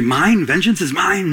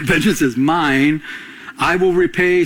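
First: Incredulous, questioning "Vengeance is mine?" with a rise on "mine"; doubting question. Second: Slow, firm "Vengeance is mine", said as settled fact; firm declaration. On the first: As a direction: echo it back in disbelief. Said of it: "You might say". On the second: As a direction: state it with God's authority. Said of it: "God's saying". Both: Retold or imitated.

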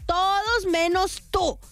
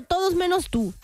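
First: "todos menos tú" high and drawn out; slow down, stretching "todos" and "tú"; dramatic, word-by-word "todos menos tú"; emphatic reproach. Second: Said in the usual way. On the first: Real, not acted.

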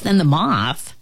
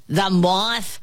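First: Said in the usual way. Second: Drawn, questioning ant exclamation; incredulous cry. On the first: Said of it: "interrupted the fly, trying to make peace". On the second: A narrator's reading. Ant scoffing at the fly's comparison, incredulous cry. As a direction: throw THE MOTH back as a scornful question. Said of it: "cried the ant".

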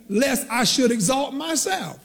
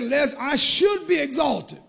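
First: "exalt myself" said slowly as the misquote; slow, deliberate "exalt myself"; stress on EXALT MYSELF. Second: "should be exalted" pitched up and drawn out; slow, higher emphasis on "be exalted"; stress on BE EXALTED. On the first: Preacher quoting what Paul didn't say, slow stress on "exalt myself". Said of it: "but Paul didn't say". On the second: Preacher correcting a misquote of Paul, stressed "should be exalted". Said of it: "it's used in the passive voice". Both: Shown as a demonstration.

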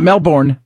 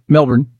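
First: Melbourne with a full, stressed "bourne" like the English word; wrong Melbourne. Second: Melbourne said MEL-bun, with a short, swallowed second syllable; local Melbourne. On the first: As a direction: say Melbourne as mel-BORN, the wrong way. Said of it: "not Melbourne". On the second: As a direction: say Melbourne the Australian way, "bourne" reduced to "bun". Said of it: "That's the Melbourne". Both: Shown as a demonstration.

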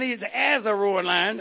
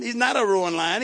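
First: "as" lifted and lingered on; stress on as. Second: "not" pushed forward, "a roaring lion" left flat; stress on not. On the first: Preacher correcting himself for the saints, stressing "as". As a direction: underline "as" with your voice. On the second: Preacher telling the saints the devil is no lion, leaning on "not". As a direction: deny it plainly, leaning on "not". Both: Shown as a demonstration. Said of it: "underline the word as".

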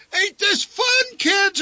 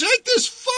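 First: Very high, slow shout leaning on fun; high hammed-up shout stressing fun; forced cheerful shout. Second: Very high shout, this stressed, rising at the end; high yell with this punched and a rising tune. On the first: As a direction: holler fun over the roar of the ride. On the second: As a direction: push this up like a strained question. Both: A narrator's reading. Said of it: "shouted the old man".

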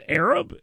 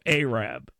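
First: "Arab?" said AIR-ub, rising as a question; wrong pronunciation. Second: "Arab" said AY-rab, both syllables full; local pronunciation. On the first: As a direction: mimic the outsider saying "Arab" as AIR-ub. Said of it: "And he says". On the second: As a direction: correct him: "Arab" as AY-rab. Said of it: "And he's like, "No, Arab". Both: Retold or imitated.

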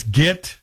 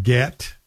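First: "get" with a raised vowel, near git; Valley vowel. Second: "get" with an open e vowel; standard vowel. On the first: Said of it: "not get". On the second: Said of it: "But it's get". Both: Shown as a demonstration.

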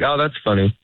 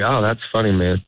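First: A bit quicker, polite dismissal; hurried oh that's funny, trying to get to the door; quick brush-off. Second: Mean it, like a fellow comic enjoying the joke; genuine amused tone. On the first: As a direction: rush it to escape the conversation. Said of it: "You say it a little bit quicker". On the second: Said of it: "in this tone". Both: Shown as a demonstration.

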